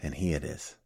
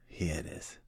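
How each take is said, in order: First: Said in the usual way. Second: Breathed out in a hushed whisper. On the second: Real, not acted. Revealing Bill's list to the group in a hushed whisper.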